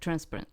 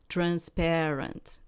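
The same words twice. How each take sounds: First: The word carries a non-English stress pattern. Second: The word carries the usual English stress pattern. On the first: "We say like transparent" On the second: "We don't say it like you like transparent"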